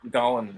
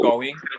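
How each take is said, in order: First: The final G sound is dropped. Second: The final G sound is clearly pronounced.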